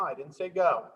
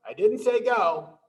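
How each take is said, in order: First: Said in the usual way. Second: I didn't SAY go, louder and higher; playful mock scolding. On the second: Shown as a demonstration. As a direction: tease the early movers with a louder scold. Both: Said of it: "No, no, no".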